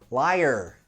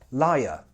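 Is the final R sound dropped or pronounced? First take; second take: pronounced; dropped. First: The final R sound is clearly pronounced. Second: The final R sound is dropped. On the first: "In most American accents, however, it's rhotic, so that R will be quite pronounced" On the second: "most British accents are non-rhotic, so that R won't be super pronounced"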